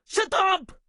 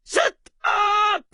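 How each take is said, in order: First: Short, firm shouted command; brisk, angry silencing; angry order. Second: Drawn-out, forceful shout; long, exasperated silencing shout; escalated angry order. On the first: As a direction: cut them off with a quick order. First of a repeated angry order. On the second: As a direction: stretch both words into an angry yell. Repeats the order with more force. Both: Acted.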